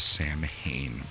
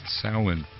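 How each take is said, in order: First: The word sounds like sam-hain. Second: The word sounds like sow-an. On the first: The speaker calls it wrong. "some people mistakenly pronounce the word as Samhain" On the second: The speaker calls it right. "it's actually pronounced Samhain, pronounced more like S-O-W-A-N"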